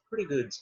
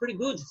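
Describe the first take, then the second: First: It sounds hesitant and unconvinced. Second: It sounds upbeat and positive. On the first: The person is only so-so. "Você está respondendo que você está mais ou menos" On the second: The person is doing well. "Você está respondendo que você está bem"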